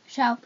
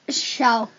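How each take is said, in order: First: It is said with little energy. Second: It is said with more energy.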